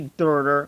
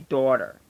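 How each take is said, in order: First: It is said in a general American accent. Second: It is said in a Delco accent, like dawder. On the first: "We don't say daughter" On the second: "we say daughter. D A W D E R"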